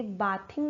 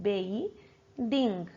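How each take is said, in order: First: "बाथिंग" starting like bath; wrong ah vowel. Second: "बेइंग" as bey, pause, ding; correct ey vowel. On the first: Teacher shows how not to say bathing, ah vowel. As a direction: say "बाथिंग" quickly as baa-thing. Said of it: "ये बाथिंग नहीं होता". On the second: Teacher models correct bathing, ey vowel. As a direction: split it slowly into BEY... ding. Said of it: "इसको बोलते हैं बेइंग". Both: Shown as a demonstration.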